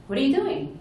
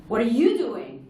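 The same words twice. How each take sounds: First: Doing stressed, falling at the end; curious question stressing doing. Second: You punched high and louder; accusing question stressing you. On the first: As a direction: lean on the word doing. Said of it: "It's completely different than". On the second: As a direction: hit the word you hard. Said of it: "You, the emphasis". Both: Shown as a demonstration.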